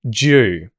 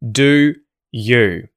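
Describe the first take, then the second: First: The d and y merge into one 'j' sound. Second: Both words keep a full oo vowel. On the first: "The d and the ye merge, and you're going to hear J" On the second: "same vowel sound, but we have de and ye"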